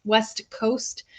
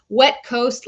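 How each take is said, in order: First: Said in the usual way. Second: Wet punched, louder, falling; stress on Wet. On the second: Shown as a demonstration. Host correcting a viewer's location name, stress on Wet. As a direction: hit the word Wet hard. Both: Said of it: "The accidental pirate from Canada's wet coast".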